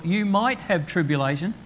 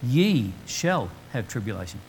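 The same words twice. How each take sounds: First: Mock hedging. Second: "Ye shall have tribulation" lower and firm, stress on "Ye"; firm certainty. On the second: Preacher quoting Jesus' certain warning, low and firm. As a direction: state it as settled fact. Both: Shown as a demonstration. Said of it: "He says".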